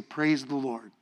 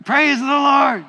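First: Soft example. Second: Shouted high and loud, Praise the Lord; loud congregation shout. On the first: Shown as a demonstration. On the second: Real, not acted. Congregation answers the preacher's count with a loud shout. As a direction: call it out with umph. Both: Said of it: "do it with umph".

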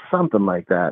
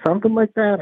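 First: Said in the usual way. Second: "Something like that?" jumps much higher in disbelief; incredulous echo. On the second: Retold or imitated. Counselor echoing the inmate's dodge back at him, incredulous. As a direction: throw his own words back at him, questioning.

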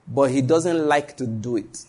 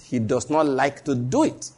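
First: Slow, weighty, stressed line; slow emphatic preacher line; emphasis on not liking. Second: Slow, with "not" drawn out; slow emphasis. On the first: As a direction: lean on "doesn't like", slowly. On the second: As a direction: stretch "He does not like", slowly. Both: Shown as a demonstration. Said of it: "That's the emphasis".

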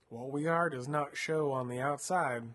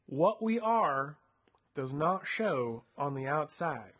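First: Said in the usual way. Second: Slow, spelled-out "What we are" with weight on "are"; "What we are does not show on the outside" slowed right down, pitch up on "are"; slow emphatic repeat. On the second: Shown as a demonstration. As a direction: repeat it slowly so she catches it. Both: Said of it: "What did he say?".

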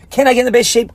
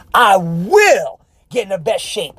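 First: "Can I get in the best shape?" asked with an unsure rising question tune; doubtful question. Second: "I will get in the best shape" with a settled, falling statement tune; firm statement. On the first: Coach showing the audience a doubting question, rising. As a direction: ask "Can I" as if doubting it can happen. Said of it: "Question mark". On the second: Coach showing the audience the certain version, firm and falling. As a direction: state it with certainty, with no question left. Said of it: "Exclamation point". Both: Shown as a demonstration.

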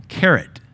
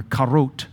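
First: Carrot, said KAIR-it the American way; plain American carrot. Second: Karot, said kah-ROHT with an o; imitating the translator's karot; foreign way of saying carrot. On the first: Shown as a demonstration. Preacher repeating his own word to the translator, Carrot. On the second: Preacher retelling the Nigerian translator's word, karot.

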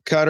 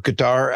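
First: Qatar with first-syllable stress, KUT-er; Qatar as "cutter". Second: Qatar stressed on the second syllable; Qatar as "kuh-TAR". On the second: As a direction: say Qatar as kuh-TAR, open final vowel. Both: Shown as a demonstration. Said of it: "how do you say".

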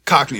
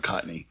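First: "Cockney" with a k sound before the n; correct pronunciation. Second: "Cockney" with a t instead of ck; mispronunciation. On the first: Co-host correcting the accent's name, pronounced "Cockney" with a k. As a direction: say "Cockney" with a clear ck in the middle. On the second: Co-host showing the slip, "Cockney" mispronounced as "Cotney". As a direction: say "Cockney" as if it were "Cot-nee". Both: Shown as a demonstration. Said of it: "that's right, not Cockney".

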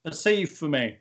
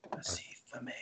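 First: Said in the usual way. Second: Muffled, muted mumble; Kenny from South Park. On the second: Pretend. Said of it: "now you sound like Kenny from South Park".

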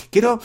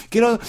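The two takes are said the same way.

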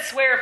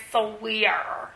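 First: Said in the usual way. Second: "swear" stretched into two syllables, like "so-wear"; funny pronunciation. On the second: Retold or imitated. Host quoting the actress's odd line, funny pronunciation. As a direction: mimic her oddly drawn-out "swear". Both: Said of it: "she said swear funny".

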